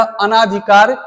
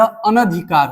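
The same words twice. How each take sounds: First: अनाधिकार with a long aa in ना; wrong pronunciation. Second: अनधिकार with a short a in न; correct pronunciation. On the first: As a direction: stretch the ना in अनाधिकार as the mistake. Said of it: "अनाधिकार नहीं होता है". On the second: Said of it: "यह अनधिकार होता है". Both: Shown as a demonstration.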